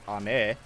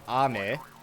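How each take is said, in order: First: The pitch rises from the first syllable. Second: The pitch falls from the first syllable. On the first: It means candy. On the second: It means rain.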